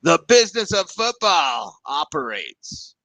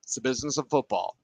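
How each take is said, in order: First: Slow, leaning hard on "business"; "business" drawn out and lowered, pitch falling; stress on business. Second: Quick, with the weight on "of"; "of" punched as the key word, fast; stress on of. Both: Shown as a demonstration. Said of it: "It's not football business".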